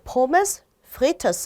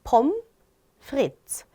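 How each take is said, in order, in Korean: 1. 마지막 s 소리는 발음해요. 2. 마지막 s 소리는 발음하지 않아요. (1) "이렇게 읽고 싶잖아요" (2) "뒤에를 안 읽어줘요. S를 특히나"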